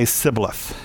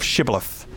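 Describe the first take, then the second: First: The word begins with a plain s sound. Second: The word begins with an sh sound. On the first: The speaker is not one of the group. The speaker calls it wrong. "would mispronounce the word and say Sibboleth" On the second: The speaker is one of the group. The speaker calls it right. "instead of Shibboleth"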